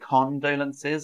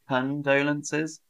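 First: The unstressed vowel is a full vowel. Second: The unstressed vowel is reduced to schwa. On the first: The speaker calls it wrong. "I didn't say condolences" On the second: The speaker calls it right. "There's a bit of a schwa in there"

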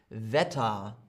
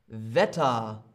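No difference in how they are said.

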